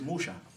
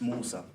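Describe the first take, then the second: First: The middle consonant is an sh sound. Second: The middle consonant is an s sound. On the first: This is the Hebrew form of the name. "they wouldn't say Sir, they would say Sha" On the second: This is the Arabic form of the name. "in Arabic, it's Musa"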